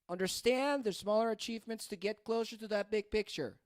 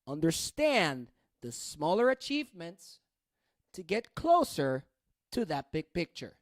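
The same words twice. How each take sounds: First: It flows on without pauses between phrases. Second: It has pauses between phrases and stressed words. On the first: "let me add intonation" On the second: "I'm gonna add rhythm"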